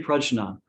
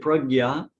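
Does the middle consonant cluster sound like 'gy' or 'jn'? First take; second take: jn; gy. First: The middle cluster sounds like 'jn'. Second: The middle cluster sounds like 'gy'. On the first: This is the form used in the Buddhist tradition. "in the Buddhist tradition, they they say prajna" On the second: This is the form used in Hindi. "but in Hindi we say pragya"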